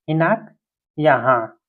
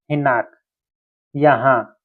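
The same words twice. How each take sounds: The two takes are said the same way.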